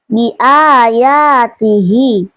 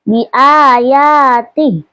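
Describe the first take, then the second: First: The word ends with a lengthened final vowel. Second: The word ends cut short on a consonant. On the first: The reading continues on without stopping. "kalau wasal" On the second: The reading stops at this word. "kalau waqaf"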